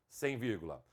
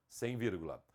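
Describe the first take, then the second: No difference in how they are said.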